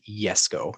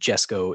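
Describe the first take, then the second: First: It starts with a Y sound. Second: It starts with a J sound. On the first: The speaker calls it right. "is the Yesco if you're pronouncing it correctly" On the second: The speaker calls it wrong. "the Jesco"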